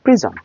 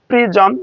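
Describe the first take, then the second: First: প্রিজম short and falling, last vowel reduced; syllabic M prism. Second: প্রিজম as two full syllables, pri-jom; full-vowel prism. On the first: English teacher models prism for students, syllabic M. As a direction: close প্রিজম quickly on the M. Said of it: "না বলে আমরা বলতে পারি". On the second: English teacher shows what to avoid, full-vowel prism. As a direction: give প্রিজম a clear o before M. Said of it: "এভাবে না বলে আমরা বলতে পারি". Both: Shown as a demonstration.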